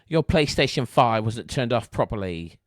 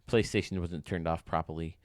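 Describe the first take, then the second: First: It is said in an English accent. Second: It is said in the speaker's usual accent.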